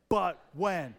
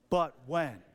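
First: It is said forcefully, with extra energy. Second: It is said calmly, with little force.

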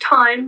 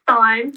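First: The word begins with a plain t sound. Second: The word begins with a th sound. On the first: The speaker calls it right. "it's pronounced Thyme" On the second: The speaker calls it wrong. "not Thyme"

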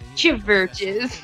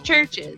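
First: The name is said with three syllables. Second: The name is said with two syllables. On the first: The speaker calls it wrong. "It is not how you're supposed to pronounce it" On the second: The speaker calls it right. "It's churches"

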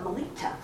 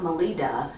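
First: The consonant before the last vowel sounds like T. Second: The consonant before the last vowel sounds like D. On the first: The speaker calls it right. "they say it with a T" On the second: The speaker calls it wrong. "not with a D sound. It's not Melita"

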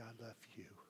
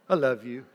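First: It is said softly and tenderly, with feeling. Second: It is said quickly and playfully in passing.

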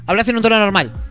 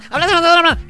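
First: It is said faster, like sped-up audio. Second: It is said very fast and squeaky.

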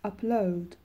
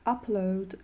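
First: The stress is on the second syllable. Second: The stress is on the first syllable. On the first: It is used as a verb. "وقتی که استرس روی سیلاب دومشون باشه فعل هستن" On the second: It is used as a noun. "وقتی که استرس رو سیلاب اولشون باشه کار معنی اسمی دارن"

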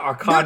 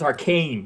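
First: It is said with an anime-style pronunciation. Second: It is said with the usual English pronunciation. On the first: The speaker calls it wrong. "not arcane" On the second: The speaker calls it right. "the word is arcane"

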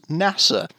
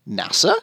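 First: It is said in a British accent. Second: It is said in an Australian accent, rising. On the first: "we've got British NASA" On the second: "Australian NASA, which is NASA, with a question mark at the end of it"

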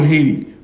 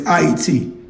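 First: It is said the commonly used way. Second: It is said the way H-A-Y-T-I spells. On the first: This is what most people call the country. The speaker calls it wrong. "What you guys call Haiti" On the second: This is the original name of the country. The speaker calls it right. "That's the correct pronunciation. I-E-T. H-A-Y-T-I"

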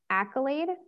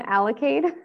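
First: The word begins with a K sound, no L. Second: The word begins with an extra L sound. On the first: The speaker calls it right. "It's accolade" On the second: The speaker calls it wrong. "I'm adding L's where L's aren't"

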